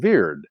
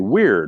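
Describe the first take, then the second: First: The word begins with a V sound. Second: The word begins with a W sound. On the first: This is the old way the word was said. "They pronounced it as a V" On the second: This is how the word is said today. "we say today weird with a W"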